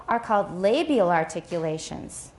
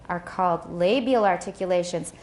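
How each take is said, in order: The two takes are said the same way.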